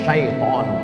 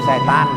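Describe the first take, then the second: First: It begins with sh and has two vowels. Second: It begins with s and has short e. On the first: "yang betul di mana Pak Ustaz? Setan apa syaiton? Syaiton" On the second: "Cuman orang kita payah bilang syaiton"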